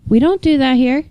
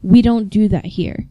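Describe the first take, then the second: First: Higher, uncomplicated reminder with lifted ending; simple, matter-of-fact. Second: Understated stern correction; firm, stern. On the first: Moderator giving a simple reminder, higher and unfussy. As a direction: state the rule simply, pitched up. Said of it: "like, a very simple". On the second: Moderator telling someone off, firm and mildly stern. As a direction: set a firm boundary without raising the voice. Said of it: "very firmly and very sternly go". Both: Retold or imitated.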